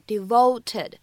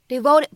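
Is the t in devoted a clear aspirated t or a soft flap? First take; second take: aspirated; flap. First: The t is clear and strongly aspirated. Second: The t is a soft, quick flap. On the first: The speaker calls it wrong. "各位同学呢并不需要读成devoted" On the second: The speaker calls it right. "它在美式发音当中末尾呢存在一个闪音的处理"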